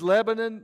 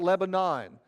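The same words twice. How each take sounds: First: The name is said short and clipped. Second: The name is said slowly and drawn out. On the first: This is how the place is named. The speaker calls it right. "This is Lebanon" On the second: This is a Southern way of saying it. The speaker calls it wrong. "not Lebanon. ... Everything gets dragged out in Georgia"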